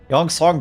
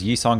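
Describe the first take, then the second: First: The first part sounds like 'yong'. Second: The first part sounds like 'yee'. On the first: The speaker calls it right. "Get it right" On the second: The speaker calls it wrong. "Why are you pronouncing it wrong?"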